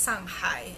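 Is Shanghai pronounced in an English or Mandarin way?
Mandarin. It is said the Mandarin way, with Chinese tones. This is how local people say the name. The speaker calls it right. "learn from the locals that it's pronounced as Shanghai"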